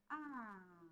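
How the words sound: The interjection sounds sad. The speaker is sad. "de tristeza"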